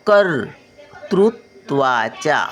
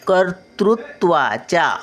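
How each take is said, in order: First: कर्तृत्वाच्या slowly split into syllables; slow syllable reading. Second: Said in the usual way. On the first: Shown as a demonstration. Grandmother sounding out कर्तृत्वाच्या for children. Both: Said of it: "word then slow repeat".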